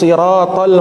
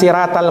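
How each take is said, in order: First: The s is a heavy, emphatic sound. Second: The s is a light, plain sound. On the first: It means the path, as in the straight path. The speaker calls it right. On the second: It means crab, as in the straight crab. The speaker calls it wrong.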